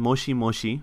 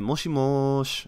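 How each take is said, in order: First: The final vowel is clearly pronounced. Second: The final vowel is dropped. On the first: "It's written moshimoshi" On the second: "you say moshimosh"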